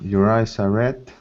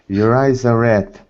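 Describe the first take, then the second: First: It is said flatly, without emotion. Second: It is said with strong emotion.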